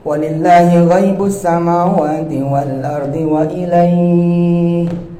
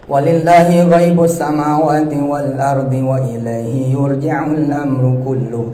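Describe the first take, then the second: First: It stops with a pause after wa ilaihi. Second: It runs on without stopping after wa ilaihi.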